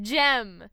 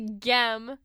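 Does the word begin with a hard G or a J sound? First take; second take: J sound; hard G. First: The word begins with a soft J sound. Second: The word begins with a hard G sound. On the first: The speaker calls it right. "G- G-E-M. Gem" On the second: The speaker calls it wrong. "You don't say gem"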